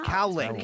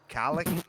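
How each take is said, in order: First: The word is said carefully, each vowel distinct. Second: The word is said loosely, blurring its vowels. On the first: The speaker calls it right. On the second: The speaker calls it wrong.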